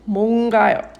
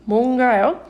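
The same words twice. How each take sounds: First: The first word ends in an ng sound. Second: The same.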